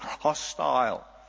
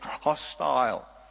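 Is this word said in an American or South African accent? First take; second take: South African; South African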